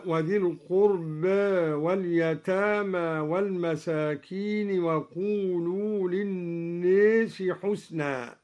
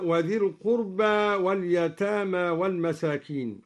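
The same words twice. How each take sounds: First: القربى with its alif half tilted toward e; taqlil in القربى. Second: القربى ending on a plain open a; open alif in القربى. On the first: Teacher demonstrating al-Duri's minor imala on القربى. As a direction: lean القربى's alif slightly. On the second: Teacher reciting the base reading of القربى. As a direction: end القربى on a full fatha. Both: Shown as a demonstration. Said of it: "قلل أيضًا الدوري ألف القربى".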